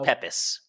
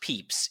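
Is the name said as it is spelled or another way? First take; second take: as spelled; another way. First: The name is said as it is spelled. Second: The name is said in its accepted pronunciation. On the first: "It's spelled Pepys" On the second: "It's pronounced Pepys"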